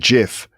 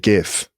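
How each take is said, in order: First: The word begins with a soft J sound. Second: The word begins with a hard G sound. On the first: The speaker calls it wrong. "I naturally want to call it a GIF" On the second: The speaker calls it right. "but I should call it a GIF"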